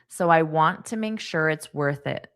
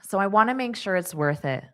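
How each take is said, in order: First: It is slow, with 'want to' fully pronounced. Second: It is fast, with 'want to' reduced to 'wanna'. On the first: "When I did it slowly, I pronounced to more as to" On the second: "at a natural pace, it's going to be more reduced and it's going to sound like wanna"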